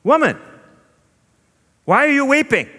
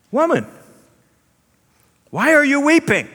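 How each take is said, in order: First: High, loud teasing question; Jesus playful. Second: High, loud gentle question from the tomb; angel voice. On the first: Jesus playfully teasing his grieving sister Mary, high and bright. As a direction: tease her like an older brother. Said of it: "and Jesus says". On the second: Angels at the tomb questioning weeping Mary, high and ringing. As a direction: call it out high like a heavenly messenger. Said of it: "angels at tomb ask Mary". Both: Acted.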